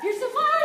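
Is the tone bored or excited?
excited. It is said in an overexcited, eager tone.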